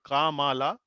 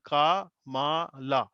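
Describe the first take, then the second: First: Said in the usual way. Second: Kamala drawn out slowly, syllable by syllable; slow demo. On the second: Shown as a demonstration. Teacher showing students how kamala sounds, slowly. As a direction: spell out kamala slowly so each syllable is heard. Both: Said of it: "then kamala".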